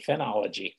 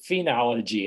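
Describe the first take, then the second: First: The first syllable sounds like 'fin'. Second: The first syllable sounds like 'fee'. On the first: "Most people pronounce it phenology" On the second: "I am glad to hear you pronounce it phenology. That's the same thing I do"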